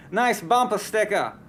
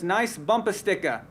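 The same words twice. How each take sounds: First: Weak attempt at a Boston accent. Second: Said in the usual way. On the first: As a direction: try a Boston accent, not quite. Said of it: "I don't have a very good Boston accent, but I try". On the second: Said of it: "I don't have a very good Boston accent".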